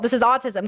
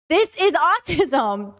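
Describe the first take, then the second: First: Said in the usual way. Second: THIS IS AUTISM drawn out slow and higher; emphatic protest. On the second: Real, not acted. Telling viewers not to blame them, slow emphatic protest. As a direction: stretch each word of "This is autism" in self-defense. Emphatic repeat, defending themself.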